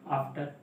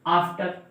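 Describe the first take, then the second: First: "आफ्टर" with a very long opening vowel; drawn-out vowel. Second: Said in the usual way. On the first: Shown as a demonstration. Teacher showing it isn't pulled long, "आफ्टर" with first vowel dragged out. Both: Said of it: "खींच के नहीं बोलते हैं".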